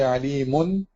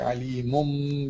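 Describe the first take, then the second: First: The ending is a clear n sound. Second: The ending turns into a nasal m sound. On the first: The speaker calls it wrong. "you don't say" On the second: The speaker calls it right. "you pronounce it with a meme sound"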